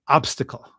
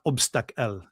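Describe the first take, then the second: First: Said in the usual way. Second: Put-on slow, accented "obstacle" being corrected; mimicked Middle Eastern accent. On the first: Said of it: "It's not obstacle". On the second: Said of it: "it's obstacle".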